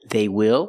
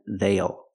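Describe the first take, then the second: First: It is said as two full words. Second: It is contracted into one short syllable.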